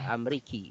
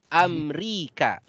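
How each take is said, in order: First: The word ends with an 'i' vowel. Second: The word ends with an 'a' vowel. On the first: The speaker calls it wrong. "Tidak dibaca" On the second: The speaker calls it right. "tetap dibaca K"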